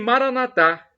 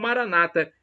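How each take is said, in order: First: The stress falls on the last syllable. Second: The stress falls before the last syllable. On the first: This is how Catholics say it. "com a tônica na última sílaba" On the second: This is how evangelicals say it. "como dizem os evangélicos"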